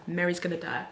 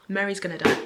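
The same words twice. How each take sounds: First: Said in the usual way. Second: Emphatic prediction. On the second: Real, not acted. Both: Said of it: "I'm calling it now".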